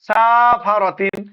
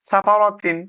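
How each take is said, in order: First: The first vowel is drawn out long. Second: Every vowel is kept short, with no lengthening. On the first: The speaker calls it wrong. "আবার যদি প্রথমে টান দিই সাফারাতিন, এটাও ভুল।" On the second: The speaker calls it right. "পরপর তিনটাই কোনো টান হবে না ... কোনো টান নেই"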